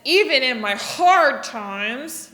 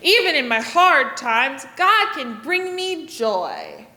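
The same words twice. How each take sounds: First: "Even in my hard times" with a frowning, frustrated face. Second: "God can bring me joy" slower with a big smile. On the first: Teacher showing kids a frustrated face on hard times. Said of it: "get kind of a frustrated face". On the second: Teacher showing kids the happy, smiling half. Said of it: "And smile really big". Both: Shown as a demonstration.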